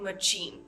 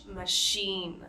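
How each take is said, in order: First: Machine said with a hard ch, the mistake; mispronounced machine; wrong ch. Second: Proper machine; correct sh. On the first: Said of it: "we want to avoid saying". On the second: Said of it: "we pronounce it as an S H sound". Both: Shown as a demonstration.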